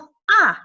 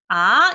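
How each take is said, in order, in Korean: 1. 음높이가 높은 데서 낮게 확 떨어져요. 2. 음높이가 중간에서 높게 올라가요. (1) "오에서 일까지 확 내려주는" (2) "삼에서부터 시작해서 오까지 올려주는 음"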